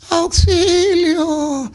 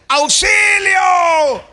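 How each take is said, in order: First: It is cried with a hoarse, tired voice. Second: It is shouted loudly with full strength.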